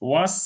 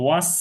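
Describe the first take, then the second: Both takes have the same delivery.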